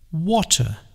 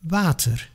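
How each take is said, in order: First: It is said the British English way. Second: It is said the Dutch way, lips barely moving. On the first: "The English say water" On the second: "We say water"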